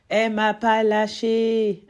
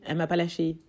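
First: "Elle m'a PAS lâché", slow, loud, with a heavy punch on "pas"; stressed exasperation. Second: Said in the usual way. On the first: Shown as a demonstration. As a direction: lean hard on "pas" and drag the line out. ("Elle m'a pas lâché" lent et fort, en martelant « pas »)

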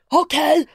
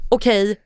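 First: Sharp, high-pitched okej; angry exclamation. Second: Said in the usual way. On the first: Shown as a demonstration. Reading a friend's text as angry, exclaiming. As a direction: fire it off like two exclamation marks. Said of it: "då blir det så här". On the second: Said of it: "hon bara".

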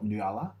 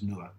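First: "Nuala" read out as spelt, noo-AH-luh; "Nuala" in three syllables, stress on the AH. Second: "Nuala" said as two syllables, NOO-luh; "Nuala" with the middle vowel dropped, NOO-luh; proper pronunciation. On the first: Spelling out a friend's name to the co-host, noo-AH-luh. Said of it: "it's kind of spelt Nuala". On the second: Correcting the co-host on a friend's name, NOO-luh. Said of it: "But pronounced Nuala". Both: Shown as a demonstration.

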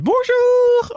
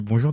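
First: «Bonjour» sung very high and bright in mockery; mocking singsong. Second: Said in the usual way. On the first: At his farewell party colleagues mock him, high singsong bonjour. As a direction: colleagues mocking her sung hello, lilting way up. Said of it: "en se foutant de ma gueule". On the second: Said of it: "de manière chantante".

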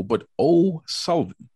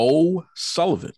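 First: O'Sullivan slow, O pitched high and held; stress on the O. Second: O'Sullivan said slowly with the O lifted high; stressed O'Sullivan. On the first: Host correcting the guest's name, slowly stressing O'Sullivan. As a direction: draw out O'Sullivan, hitting the O. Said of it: "Not Sullivan, not O". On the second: Host stressing the guest's surname, O'Sullivan drawn out and high. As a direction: lean hard on the O in O'Sullivan. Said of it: "Not Sullivan, not O, but O'Sullivan". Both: Shown as a demonstration.

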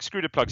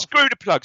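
First: Said in the usual way. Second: Squeaky high mock repeat; mock high echo. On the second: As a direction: echo it back way up high and louder. Echoing co-host's line, mocking.

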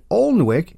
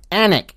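First: "Alnwick" sounded out as ALN-wick; pronounced as spelled. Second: "Alnwick" as ANN-ick; local British pronunciation. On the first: Mocking British place names, "Alnwick" read as ALN-wick. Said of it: "is pronounced Alnwick". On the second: Showing how the English say it, "Alnwick" as ANN-ick. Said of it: "is pronounced". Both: Shown as a demonstration.

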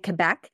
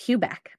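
First: Quebec said as "kuh-BECK"; no w sound in Quebec, just "Kebec"; local pronunciation. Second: Quebec said as "kyoo-BECK"; first syllable of Quebec like the letter Q; outsider pronunciation. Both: Shown as a demonstration. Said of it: "is not Quebec".

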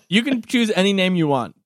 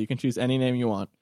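First: Said in the usual way. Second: Softer, lower repeat of the line; muttered aside, much softer; quiet repeat. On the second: Shown as a demonstration. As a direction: say it again, hushed and low.

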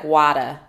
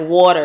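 First: WADA, open A and no final R, as Boston water; Boston accent. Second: Loud WATER with a rounded first vowel, New Jersey style; New Jersey accent. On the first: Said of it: "I think it's, like". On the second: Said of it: "'Cause New Jersey is, like". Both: Shown as a demonstration.

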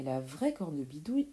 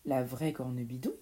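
First: Said in the usual way. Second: "La vraie cornebidouille?" low and quick, rising at the end; indignant echo question. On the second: Acted. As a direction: throw back "La vraie cornebidouille?" as an affronted question. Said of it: "s'exclama l'une".

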